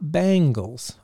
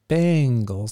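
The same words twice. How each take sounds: First: The word sounds like the band name Bangles. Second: The word is said as the team name Bengals. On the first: The speaker calls it wrong. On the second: The speaker calls it right.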